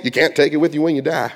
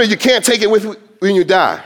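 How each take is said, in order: First: Put-on light Southern accent, quick saying. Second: Said in the usual way. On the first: Preacher quotes a familiar saying to congregation, light Southern accent. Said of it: "I don't know why I do a Southern accent".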